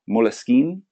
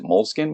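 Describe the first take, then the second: First: The name has an Italian-style pronunciation. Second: The name has an American English pronunciation. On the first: "it's an Italian company, so I believe it could be Moleskine" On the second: "I pronounce it Moleskine, but that could be just my uneducated American self"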